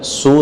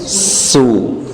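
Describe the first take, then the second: First: The lips are rounded from the very start. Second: The s is hissed before the lips round. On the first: The speaker calls it wrong. "Nggak langsung dimoyongkan su" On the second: The speaker calls it right. "tapi su"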